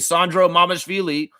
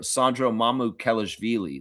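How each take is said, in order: First: The surname is shortened, middle syllables dropped. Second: The surname is said in full, all syllables. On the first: The speaker calls it wrong. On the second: The speaker calls it right.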